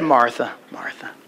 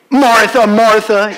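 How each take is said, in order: First: It is said in a gentle, sad tone. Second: It is said in a harsh, scolding tone.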